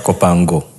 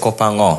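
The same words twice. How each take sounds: First: The g is pronounced as a hard g. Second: The g is not pronounced; the sound slides. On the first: The speaker calls it wrong. "not Kopango" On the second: The speaker calls it right. "That's why it's Kopango"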